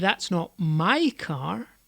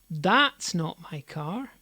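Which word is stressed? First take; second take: my; that's. First: The stress is on "my". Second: The stress is on "that's".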